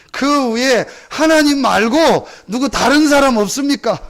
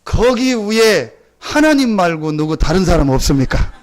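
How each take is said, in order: First: Higher, slow desperate call; louder calling out. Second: Slow call up the cliff; drawn-out plea upward. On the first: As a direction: plead harder up the cliff. (더 높고 간절하게 외치는 부름) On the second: (하나님 말고 다른 사람을 찾는 외침) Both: Retold or imitated. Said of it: "목사님이 얘기합니다".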